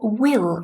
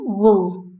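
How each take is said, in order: First: The word has a full, strong vowel. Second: The vowel is reduced to a schwa. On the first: "will is the strong form" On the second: "With schwa is the weak form"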